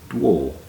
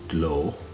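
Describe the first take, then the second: First: It is said in Saint Kildan with a w. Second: It is said in standard Gaelic with an l. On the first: "In Hirsche Gaelic that becomes dwo" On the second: "semi-standard Gaelic pronunciation"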